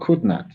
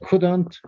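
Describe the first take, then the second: First: It is said as two separate full words. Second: It is said as one contracted word. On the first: "with no contraction" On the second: "with contraction"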